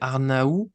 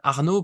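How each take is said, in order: First: The name is said with a Spanish pronunciation. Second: The name is said with a French pronunciation. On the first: "en espagnol je dirais que c'est Arnaou" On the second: "ça ressemble beaucoup au français"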